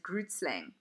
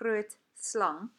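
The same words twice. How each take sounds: First: It is said with an anglicized pronunciation. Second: It is said with a South African pronunciation. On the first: This is how foreigners say the name. "A lot of international people pronounce this creature's name as Grootslang" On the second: This is how locals say the name. "as you can hear how I'm pronouncing it"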